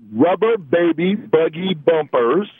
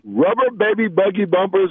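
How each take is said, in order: First: It is said slowly. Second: It is said quickly.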